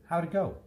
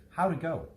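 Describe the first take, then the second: The two takes are said the same way.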